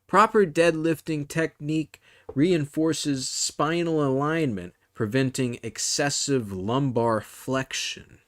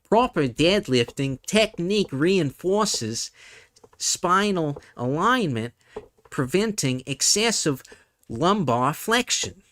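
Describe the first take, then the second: First: It is read in the speaker's usual accent. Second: It is read in a New Zealand accent.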